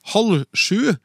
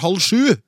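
First: The stress is on halv. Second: The stress is on sju. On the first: The speaker calls it wrong. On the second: The speaker calls it right.

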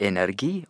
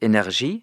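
First: The word is pronounced the Norwegian way. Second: The word is pronounced the French way. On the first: The speaker calls it right. "Det heter energi" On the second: The speaker calls it wrong. "jeg skal si det på fransk"

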